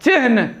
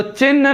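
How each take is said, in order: First: चिन्ह said as chihn, h before n; correct pronunciation. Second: चिन्ह said as chinn, n before any h; wrong pronunciation. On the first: Teacher showing the right reading, correct pronunciation. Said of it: "चिन्ह पढ़ेंगे". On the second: Teacher showing a common error, wrong pronunciation. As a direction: hold the n in चिन्ह, no h heard. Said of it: "तो चिन्ह नहीं होगा". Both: Shown as a demonstration.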